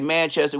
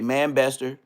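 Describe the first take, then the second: First: The middle sound is a 'ch'. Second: The middle sound is a 'b'. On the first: This is the usual way outsiders say it. "We don't say Manchester" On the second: This is the way the speaker's group says it. "we say Manbester"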